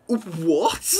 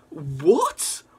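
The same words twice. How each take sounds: First: Loud, disbelieving what; stunned outcry; shocked shout. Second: Whispered disbelieving what; hushed shock; stunned whisper. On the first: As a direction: blurt it out in real shock. Shocked by comic reveal. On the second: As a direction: breathe it out in disbelief. Still shocked by reveal. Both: Real, not acted.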